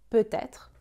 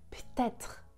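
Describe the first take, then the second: First: The word is said with all its syllables. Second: The word is squeezed into one short syllable. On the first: "Il ne prononce pas peut-être" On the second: "il contracte et prononce peut-être"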